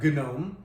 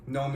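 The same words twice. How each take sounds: First: A hard G sound is heard at the start. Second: No G sound is heard at the start. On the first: The speaker calls it wrong. "It's not gnome" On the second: The speaker calls it right. "you don't say the G at all"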